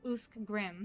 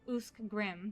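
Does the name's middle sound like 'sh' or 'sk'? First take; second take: sk; sk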